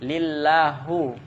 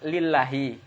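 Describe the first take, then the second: First: The word ends with a u vowel. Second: The word ends with an i vowel. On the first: The speaker calls it wrong. "Dibaca dia lillahu" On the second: The speaker calls it right. "Dia kan lillahi"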